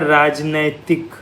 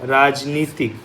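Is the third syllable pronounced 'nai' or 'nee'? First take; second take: nai; nee. First: The third syllable is 'nai'. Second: The third syllable is 'nee'. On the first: The speaker calls it wrong. "जो हम हमेशा गलती करते हैं" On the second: The speaker calls it right. "राजनीतिक ये सही शब्द है"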